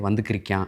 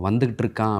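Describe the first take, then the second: First: It is said in the contracted local dialect form. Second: It is said in the standard full form. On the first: "வந்துக்கிறிக்கான் அப்படின்னு சொல்லணும்" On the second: "இப்போ வந்துக்கிட்டு இருக்கான் அப்படிங்கிற வார்த்தையை"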